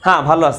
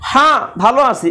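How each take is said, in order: First: The opening h sound is soft and natural. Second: The opening h sound is forced and exaggerated. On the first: The speaker calls it right. "এই গোল হাটা উচ্চারণ হলো" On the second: The speaker calls it wrong. "এখন কিন্তু আপনি বলেন নাই"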